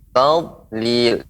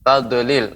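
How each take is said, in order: First: The d sound is held without a bounce. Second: The d sound is released with a bounce. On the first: The speaker calls it right. "akan tapi tadlil ... seperti tertahan karena dia tidak boleh qalqalah" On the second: The speaker calls it wrong. "tidak boleh tad, tadlil"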